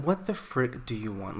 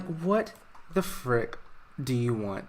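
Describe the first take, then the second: First: Said in the usual way. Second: A son sneering at his estranged dad, mock grumpy; mock grumpy snap. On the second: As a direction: drag out the words with a grumpy sneer.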